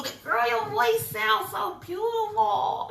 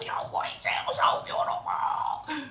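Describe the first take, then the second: First: Much higher and louder, thrilled; excited shout. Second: Whispered praise, a bit slower. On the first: Cheering herself on after singing, loud and high. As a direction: shout the praise at yourself, overjoyed. Praising her own singing. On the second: Whispering praise to herself after her song. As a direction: breathe the compliment to yourself. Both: Real, not acted.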